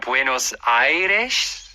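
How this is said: It is pronounced with a Spanish-like pronunciation. The speaker knows Spanish or has a Spanish background. "if you know Spanish or you maybe have Spanish uh, culture in your background, it might be more like a Buenos Aires"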